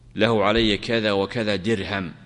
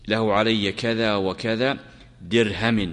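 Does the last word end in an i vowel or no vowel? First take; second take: no vowel; i vowel. First: The last word ends with no final vowel. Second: The last word ends in a short i vowel. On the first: "أو بالوقف يعني بالسكون" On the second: "وإن قال بالجر"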